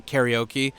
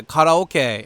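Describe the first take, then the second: First: "karaoke" in plain American English, slow and quiet; plain English pronunciation. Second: "karaoke" said the Japanese way, ka-ra-o-ke, slowly; Japanese pronunciation. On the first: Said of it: "instead of". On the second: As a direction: spell out "karaoke" as in Japanese, slow. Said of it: "karaoke instead of". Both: Shown as a demonstration.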